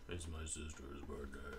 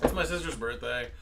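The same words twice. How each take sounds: First: It is said quieter, less excited. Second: It is said in an excited way.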